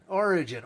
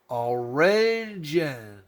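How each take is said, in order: First: Said in the usual way. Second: "Origin" drawn out extremely slowly; sounding it out. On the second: Acted. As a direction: stretch "Origin" syllable by syllable, like teaching reading. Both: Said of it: "trying our best to read this to you".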